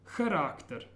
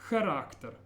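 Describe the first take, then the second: The two takes are said the same way.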